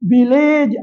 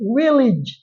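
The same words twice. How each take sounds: First: The last syllable has a vowel other than i. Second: The last syllable has a short i vowel. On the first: The speaker calls it wrong. "அல்ல" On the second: The speaker calls it right. "இ உச்சரிப்பு தான் வரும்"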